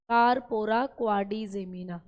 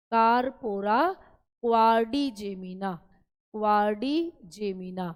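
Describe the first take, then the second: First: Said in the usual way. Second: Slow syllable drill. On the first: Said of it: "teacher repeats term for students". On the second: Shown as a demonstration. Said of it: "teacher drills the term slowly".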